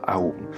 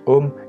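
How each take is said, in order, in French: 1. La voyelle est divisée en sons A et U. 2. La voyelle est un seul son O. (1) "et pas Aum" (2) "on dit Om"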